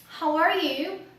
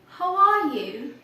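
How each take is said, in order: First: The r sound is clearly pronounced. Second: The r sound is dropped. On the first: "instead of saying" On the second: "in British accent"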